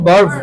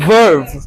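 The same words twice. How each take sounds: First: The word begins with a b sound. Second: The word begins with a v sound. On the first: The speaker calls it wrong. "It's not ভার্ভ" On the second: The speaker calls it right. "ভি উচ্চারিত হবে"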